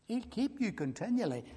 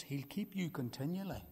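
First: Higher, full-voiced "He'll keep you continually"; lifted emphatic repeat. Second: Soft first statement. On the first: Preacher proclaims the promise to his congregation, ringing. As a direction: ring it out to the whole hall. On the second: Acted. Preacher gently tells his congregation, softly. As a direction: say it quietly, almost to yourself. Repeats line, quiet then lifted.

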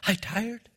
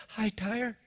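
First: Soft, drowsy mock greeting; mimicking a sleepy girl. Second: Mimicking a sleepy girl. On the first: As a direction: drag it out sleepily. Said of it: "And I says".

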